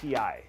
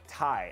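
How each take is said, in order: First: It is said as two separate letter names. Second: It is said as one word, like "tie". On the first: The speaker calls it right. "I like T I" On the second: The speaker calls it wrong. "some people are like Thai food"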